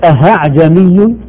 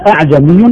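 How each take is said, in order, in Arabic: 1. الهمزة تتحول إلى صوت هاء واضح. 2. الهمزة تُنطق كاملة وواضحة. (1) "لا نقول أهعجمي" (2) "ولا أعجمي بالتحقيق"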